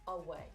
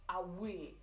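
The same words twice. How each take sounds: First: It is said in a standard British accent. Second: It is said in a Geordie accent. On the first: "you might have learned to pronounce this word away" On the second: "a Geordie person ... might say away"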